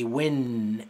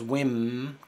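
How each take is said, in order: First: The syllable ends with an N sound. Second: The syllable ends with an M sound. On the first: The speaker calls it right. "Di win" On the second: The speaker calls it wrong. "No digas wim con M"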